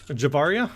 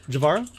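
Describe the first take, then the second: First: "Javaria" with an added i before final a; corrected name attempt. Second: "Javara" as a tentative question; unsure name attempt. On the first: Game master retrying a player's character name, tentative correction. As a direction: try "Javaria?" as a questioning correction. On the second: Game master guessing at a player's character name, unsure attempt. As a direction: try "Javara", without an i before the final a. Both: Real, not acted. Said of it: "get that name right eventually".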